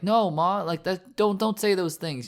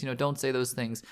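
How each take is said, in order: First: Put-on childlike pleading. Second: Said in the usual way. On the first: Son pleads with his mother not to say it, childlike pleading. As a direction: plead like a scared kid breaking down. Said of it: "kind of breaking down like a child and being like". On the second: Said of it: "breaking down like a child".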